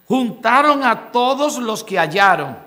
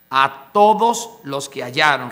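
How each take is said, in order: First: Said in the usual way. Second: Lower repeat. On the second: Shown as a demonstration.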